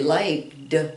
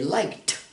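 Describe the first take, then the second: First: The word ends with a voiced d sound. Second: The word ends with a voiceless t sound. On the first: The speaker calls it wrong. "we put a D there, but we don't say liked" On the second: The speaker calls it right. "We say liked, liked, because K ... is a voiceless sound"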